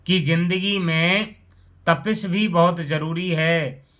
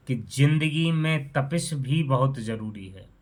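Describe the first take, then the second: First: "कि जिंदगी में तपिश भी बहुत ज़रूरी है" repeated louder and higher, stressing "भी"; recited emphasis. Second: Said in the usual way. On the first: Shown as a demonstration. Narrator reciting his own verse to friends, louder with "भी" stressed. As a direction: declaim the poem line, leaning on "भी". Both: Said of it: "repeated line of his poem".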